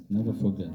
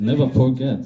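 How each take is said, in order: First: Said in the usual way. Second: NEVER pushed higher and louder; emphatic never forget. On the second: Real, not acted. Director answering the audience, stressing "Never" loud. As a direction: punch "Never" hard, then "forget" falls.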